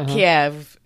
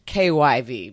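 First: It uses the older Russian-style pronunciation. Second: It uses the newer Ukrainian-style pronunciation. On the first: It follows the Russian name of the city. The speaker calls it wrong. "it's not Kyiv" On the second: It follows the Ukrainian name of the city. The speaker calls it right. "It's like KYV, basically"

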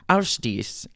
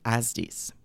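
First: The name is said in an Icelandic-like way. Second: The name is said in an anglicized way. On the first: The speaker calls it right. "It almost sounds like she's saying, how's this?" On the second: The speaker calls it wrong. "I was pretty sure I said that wrong"

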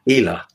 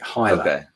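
First: The first vowel sounds like 'ee'. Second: The first vowel sounds like 'eye'. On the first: This is the actual pronunciation. The speaker calls it right. "It's actually pronounced Hyla" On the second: This is how English speakers say it. The speaker calls it wrong. "that's how an English speaker would say it"

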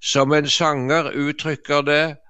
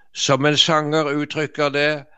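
Both takes have the same delivery.

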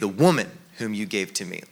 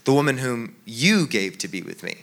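First: The word woman carries the strongest stress. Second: The word you carries the strongest stress. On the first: The woman is to blame. "pointing the finger at Eve" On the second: God is to blame. "God, this isn't my fault"

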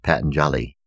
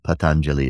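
First: The name is said with an anglicized pronunciation. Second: The name is said with its traditional pronunciation. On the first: The speaker calls it wrong. "sometimes mispronounced in the West as" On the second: The speaker calls it right. "is the proper pronunciation"

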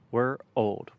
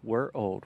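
First: It is said slowly. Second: It is said fast.

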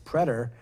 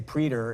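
First: The first syllable does not sound like pre. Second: The first syllable sounds like the prefix pre. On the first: The speaker calls it right. "I don't think the pronunciation is that. It's preter" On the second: The speaker calls it wrong. "people say preter, and because they think it is saying pre"

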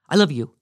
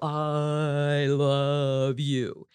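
First: It is said very fast. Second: It is said very slowly.

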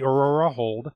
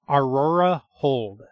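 First: The name is said quickly and indistinctly. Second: The name is said slowly and distinctly. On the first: The speaker calls it wrong. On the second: The speaker calls it right.

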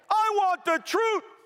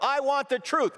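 First: The line is said loudly with forceful energy. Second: The line is said flatly with little energy. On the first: The speaker calls it right. "Here's how he said it. Let's try it again" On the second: The speaker calls it wrong. "If he said it that way, the movie would have gone nowhere"

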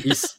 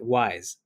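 First: The name sounds like 'ease', with no w. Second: The name sounds like 'wise', with a w. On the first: The speaker calls it right. "Very good. See" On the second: The speaker calls it wrong. "There is no way to get me to roll my eyes harder than if someone pronounces it wise"

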